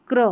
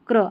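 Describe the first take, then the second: Both takes have the same delivery.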